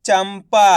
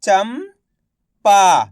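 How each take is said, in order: First: "चंपा" blended into one word; syllables joined. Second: "चंपा" split slowly, loud, pause before पा; syllable by syllable. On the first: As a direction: say "चंपा" whole, without the pause. ("चंपा" मिलाकर एक शब्द में) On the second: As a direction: sound out "चंपा" as चम, then पा. ("चंपा" को तोड़कर, धीरे-धीरे) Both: Shown as a demonstration. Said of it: "तो मिलके बन जाएगा".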